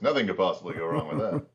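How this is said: It is said in a put-on character voice.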